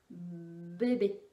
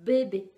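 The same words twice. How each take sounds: First: Said in the usual way. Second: "bébé" said louder, each b pressed; emphasized bébé. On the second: Shown as a demonstration. Therapist showing the letter card, stressed bébé. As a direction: lean hard on both b's of "bébé". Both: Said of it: "c'était le B de".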